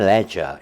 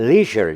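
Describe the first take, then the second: First: It is said with a British pronunciation. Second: It is said with an American pronunciation. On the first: "영국은 leisure 이렇게 발음이 되죠" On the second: "요게 이제 미국식 스타일의 발음이고요"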